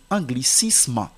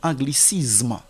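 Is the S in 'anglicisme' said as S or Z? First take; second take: S; Z. First: The S is said as a hissing S. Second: The S is said as a buzzing Z. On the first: The speaker calls it right. "la lettre S ici ne se prononce pas comme Z" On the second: The speaker calls it wrong. "que les gens lisent comme anglicisme"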